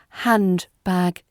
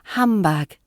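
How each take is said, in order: First: The n and d sounds are both pronounced. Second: The d is dropped and n sounds like m. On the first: "Careful pronunciation" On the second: "natural British pronunciation"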